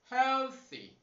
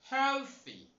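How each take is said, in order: No difference in how they are said.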